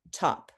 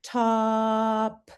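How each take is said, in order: First: Said in the usual way. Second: "Top" with the t run straight into a held vowel; stretched blending. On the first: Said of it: "Watch me". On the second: Shown as a demonstration. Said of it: "blend right into the vowel".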